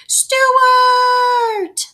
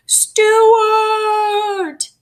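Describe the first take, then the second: First: Long, high, loud call again into the hole. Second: Long, high, loud call into the hole. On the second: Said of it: "they all called". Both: A narrator's reading.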